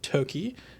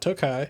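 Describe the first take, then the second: First: The word ends with a 'key' sound. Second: The word ends with a 'kai' sound. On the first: The speaker calls it right. "Toki is how you pronounce this" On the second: The speaker calls it wrong. "not Tokai"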